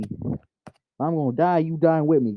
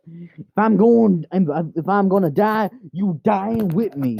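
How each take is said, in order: First: Said in the usual way. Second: Melodramatic threat. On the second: Pretend. Owner vows to take the cat along, melodramatic.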